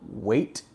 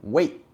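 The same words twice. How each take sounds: First: The final T is clearly released. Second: The final T is stopped suddenly in the throat. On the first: The speaker calls it wrong. "we don't say wait" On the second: The speaker calls it right. "we say wait"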